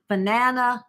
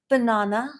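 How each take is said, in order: First: The word is said in a non-British accent. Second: The word is said in a British accent. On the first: "is the way I say it" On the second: "I love the way British people say banana"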